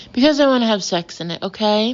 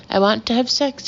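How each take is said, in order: First: Loud, rapid-fire angry outburst; exasperated explosion. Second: Measured restatement, still insistent; calmer repeat. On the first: Ben snapping at the wife over the room, exploding. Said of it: "Ben explodes". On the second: Ben restating his demand to the couple, more calmly. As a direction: say it deliberately, with the outburst reined in. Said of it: "he repeats more calmly". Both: A narrator's reading.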